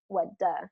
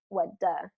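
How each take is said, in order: First: The word do has a reduced uh vowel. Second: The word do has a reduced uh vowel.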